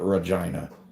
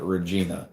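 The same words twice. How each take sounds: First: It is said the way Canadians say it. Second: It is said the way Americans say it.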